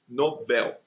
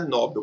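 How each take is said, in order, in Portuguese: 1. A tônica está na última sílaba. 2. A tônica está na primeira sílaba. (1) "o prêmio é Nobel ... também é uma oxítona" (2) "É errado, o prêmio não é Nobel"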